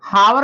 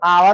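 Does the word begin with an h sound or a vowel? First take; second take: h sound; vowel. First: The word begins with an h sound. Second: The word begins directly with a vowel. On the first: This is how the spelling looks. The speaker calls it wrong. "हावर लिखा गया है एच O यू आर" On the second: This is the real pronunciation. The speaker calls it right. "इसका जो उच्चारण होगा वो आवर होगा"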